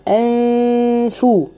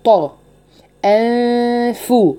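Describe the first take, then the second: First: أنفو with a thin light ghunna; light ghunna demo. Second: طا heavy, then أنفو with a light ghunna; slow contrast demo. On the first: Teacher contrasts the light ghunna. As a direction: keep the nasal light before الفاء. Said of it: "شوفوا هنا أنفو". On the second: Teacher contrasts heavy and light ghunna. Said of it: "رققت عند الفاء وفخمت عند الطاء". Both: Shown as a demonstration.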